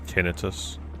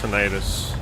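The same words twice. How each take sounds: First: The word is said the British way. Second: The word is said the non-British way. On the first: "it's the British way of saying it" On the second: "I'm pretty sure it's pronounced tinnitus"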